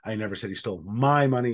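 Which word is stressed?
my. The stress is on "my".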